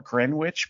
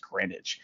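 First: Greenwich said as spelled, with an audible w; spelling pronunciation. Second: Greenwich said Gren-itch, with silent w; correct local pronunciation. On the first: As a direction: say Greenwich as green or gren plus witch. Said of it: "It's spelled Greenwich". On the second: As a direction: drop the w in Greenwich, making it Grenitch. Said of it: "it's pronounced Greenwich". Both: Shown as a demonstration.

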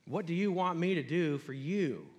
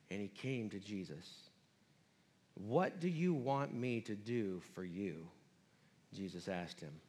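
First: Said in the usual way. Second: Quiet reading. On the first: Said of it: "repeated phrase". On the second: Acted.

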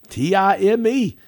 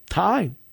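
First: T I M E spelled out loud, high and slow; spelled out letter by letter. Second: Said in the usual way. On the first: Shown as a demonstration. Preacher spells out time to the congregation, loud and slow. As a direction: spell out T I M E, each letter punched.

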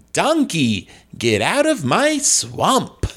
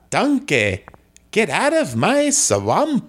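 First: Higher, theatrical comic ogre; John Lovitz Shrek. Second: Botched Scottish accent sliding into Italian; attempted Scottish accent. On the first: Guest shows the host his Shrek, theatrical comic voice. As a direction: order it with drawn-out, hammed-up inflection. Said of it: "what would a John Lovitz Shrek be like". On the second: Guest retries Shrek for the host, bad Scottish accent. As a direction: try Scottish, with an added vowel on swampa. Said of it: "I could try a Scottish accent". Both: Shown as a demonstration.

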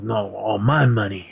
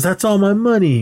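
First: Retold retort stressing "my". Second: High-pitched retold claim; mock indignant objection; acted protest. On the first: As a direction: lean on "my" in a usual-pitched voice. Correcting reply, weight on MY. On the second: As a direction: voice pitched well up on "That's all my money". Voices Chosen claiming the wallet cash.

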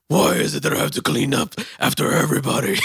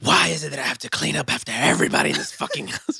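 First: High, loud nagging mom; mom impression. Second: High, fast, exasperated mom rant; mom impression. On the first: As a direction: whine it like an annoyed mom. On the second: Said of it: "She turns to Batman".

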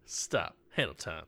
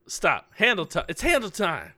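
First: Soft, flat deadpan call; flat and quiet. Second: Higher, lively announcer call; excited announcer. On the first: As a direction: mumble it without feeling. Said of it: "you gotta, you gotta give me that". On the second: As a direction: announce it with gusto. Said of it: "that's a lot of feeling". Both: Shown as a demonstration.

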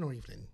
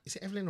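First: Evelyn said EEV-lin, as the alternative; long-E pronunciation. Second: Evelyn said EV-lin, as an option; short-E pronunciation. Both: Shown as a demonstration. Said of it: "is it Evelyn or Evelyn?".

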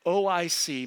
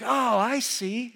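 First: Said in the usual way. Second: Drawn-out, higher "Oh, I see"; sudden understanding, stretched out and pitched up; dawning realization. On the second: Acted. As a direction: act out the penny dropping. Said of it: "So it's kinda like".

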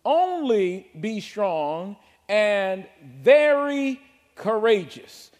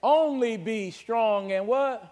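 First: Very slow, loud, dragged out "Only be strong and very"; emphatic scripture. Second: Slow prompt stressing "Only", question at end; call and response. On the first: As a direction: stretch every word. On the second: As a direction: ask the church to finish it. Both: Shown as a demonstration. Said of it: "The word only".

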